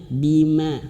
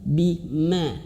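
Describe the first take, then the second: Both takes have the same delivery.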